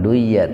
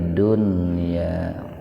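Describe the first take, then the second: First: The n sound merges nasally into the y. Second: The n sound is pronounced clearly before y. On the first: The speaker calls it wrong. "jangan duya" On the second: The speaker calls it right. "wajib dibaca idhar"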